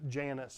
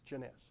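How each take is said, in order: First: The name is pronounced with English sounds. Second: The name is pronounced with French sounds. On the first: The speaker calls it wrong. "I used to pronounce it Janus" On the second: The speaker calls it right. "This is French. It's Janus"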